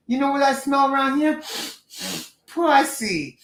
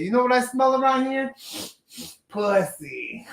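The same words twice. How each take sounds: First: Put-on quoting a movie line in an East Coast accent, pitched higher. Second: Put-on movie quote in an East Coast accent, pitched higher; retelling the line in a put-on East Coast accent. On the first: To his co-host, quoting House Party in an East Coast accent. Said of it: "I took that from the movie House Party". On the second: Explaining the House Party quote to his co-host, in an East Coast accent. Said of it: "he has this East Coast accent saying".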